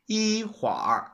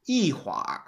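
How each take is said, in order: First: "yi huar" with yi high and level, huar dipping; "yi huar" without sandhi, high then dipping; first plus third tone. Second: "yi huar" with yi falling, huar dipping; "yi huar" after sandhi, falling then dipping; fourth plus third tone. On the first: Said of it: "if you have one three". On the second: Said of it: "change it to four three". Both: Shown as a demonstration.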